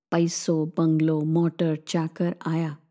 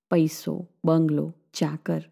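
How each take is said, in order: First: Lower, slow, weighing each word પૈસો, બંગલો, motor, ચાકર; slow, each word stressed. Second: Said in the usual way. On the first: A narrator's reading. To her friend, listing riches word by word, slow. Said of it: "એક એક શબ્દ પર ભાર મૂકતી એ ધીરે સાદે બોલી". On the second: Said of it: "એકાએક શાંતિ તોડીએ બોલી".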